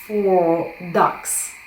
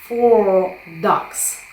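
The two takes are said the same way.

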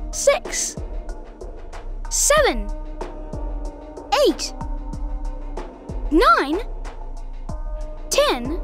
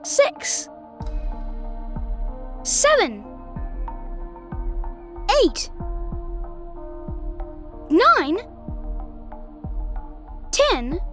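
First: The numbers are counted at a medium pace. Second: The numbers are counted at a slow pace.

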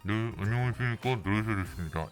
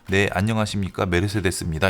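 First: The voice sounds muffled and stuffy. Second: The voice sounds clear and open. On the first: The speaker has been hidden away. The speaker calls it wrong. "이런 식으로 굉장히 답답하게 들리게 되겠죠" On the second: The speaker is installed properly. The speaker calls it right. "이렇게 들리는 거예요"

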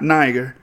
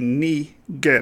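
First: The first vowel sounds like 'eye'. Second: The first vowel sounds like 'ee'. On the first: This is the English way of saying it. The speaker calls it wrong. "It's not Niger. That's the English, British tongue speaking" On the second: This is the Latin way of saying it. The speaker calls it right. "the Latin would be Niger, because the I is pronounced like two E's"

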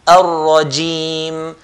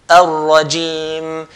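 No difference in how they are said.

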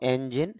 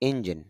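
First: The first vowel is an open 'e' sound. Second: The first vowel is a close 'i' sound. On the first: This is the English pronunciation. "আমরা ইংলিশে বলবো এঞ্জিন" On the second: This is the Bengali pronunciation. "Bangla sound হবে ইঞ্জিন"

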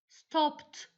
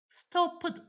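First: The ending is a plain t sound. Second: The ending is not a plain t sound. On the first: The speaker calls it right. "Sondaki T harfini duyuyorsunuz" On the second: The speaker calls it wrong. "Stopped, watched, liked demiyorum"

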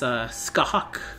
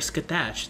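First: The name ends with a hawk-like sound. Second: The name does not end with a hawk-like sound. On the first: The speaker calls it right. "the hatch at the end is pronounced more like hawk in hockey" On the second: The speaker calls it wrong. "I called her Skatash. That's not how you say her name"

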